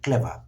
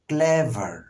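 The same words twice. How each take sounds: First: The final r sound is dropped, British style. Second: The final r sound is pronounced, American style. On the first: "আর বাদ দিয়ে করি" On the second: "আর সহ উচ্চারণ করি দেন will sound American"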